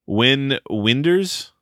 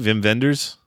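First: The first name begins with a W sound. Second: The first name begins with a V sound.

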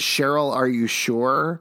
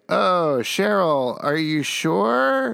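First: It sounds sincere and concerned. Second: It sounds mocking and sarcastic.

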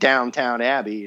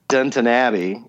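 First: The first word sounds like 'downtown'. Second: The first word sounds like 'Dunton'. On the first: The speaker calls it wrong. "because I keep saying Downtown Abbey" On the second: The speaker calls it right. "as I was told to pronounce it"

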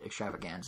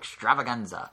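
First: It is said plainly, with flat ordinary energy. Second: It is said loudly, like a dramatic announcer. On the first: The speaker calls it wrong. "If you say it extravaganza, Nintendo doesn't let you play" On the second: The speaker calls it right. "you have to say it like that"

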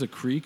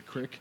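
First: It is said with a standard pronunciation. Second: It is said the Pittsburgh way, 'crick'.

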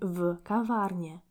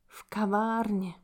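First: The v is said apart from the word. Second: The v joins the word and takes the stress. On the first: The speaker calls it wrong. "we do not say" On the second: The speaker calls it right.

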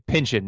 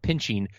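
First: It is said with a Southern US accent. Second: It is said with a general US accent. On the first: "I love how you say pinching" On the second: "not pinching"

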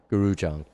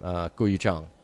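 First: The first name sounds like the word 'guru'. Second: The first name does not sound like 'guru'.

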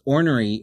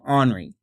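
First: It is said carefully, without the Oklahoma accent. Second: It is said with an Oklahoma accent.

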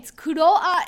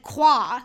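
First: The name is said as a Japanese-style word. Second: The name is said as a French-style word. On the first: "Kuroa in Japanese" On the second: "in French, ... it's like Qua"

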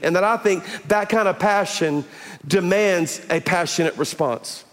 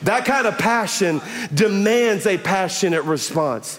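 First: It is said calmly, with less energy. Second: It is said forcefully, with more energy.

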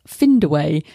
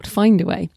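First: The first vowel does not sound like 'fine'. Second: The first syllable sounds like 'fine'. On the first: The speaker calls it wrong. "there are some obvious mispronunciations, like Findaway" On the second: The speaker calls it right. "not Findaway"

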